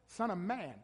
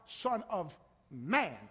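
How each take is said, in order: First: Said in the usual way. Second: "Son of Man" drawn out slowly, each word weighted; slow emphatic Son of Man. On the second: Shown as a demonstration. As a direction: lean on "Son of Man" to make the point. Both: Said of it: "not God".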